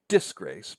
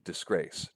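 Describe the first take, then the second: First: DISGRACE misstressed as DIS-grace; wrong first-syllable stress. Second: DISGRACE with weight on GRACE; quick light dis, then stressed GRACE in DISGRACE; stress on second syllable. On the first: Lecturer showing how it isn't said, stress wrongly on DIS. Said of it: "Not disgrace". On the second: Lecturer correcting the stress for students, second syllable emphasized. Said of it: "but disgrace". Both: Shown as a demonstration.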